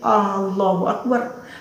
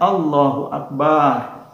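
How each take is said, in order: First: The first A sound is drawn out long. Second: The vowel after the b is drawn out long. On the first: It asks whether God is great. "Kalau dipanjangkan huruf A pada Allahu Akbar" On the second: It means God is several big drums. "Jika banyak kita panjangkan"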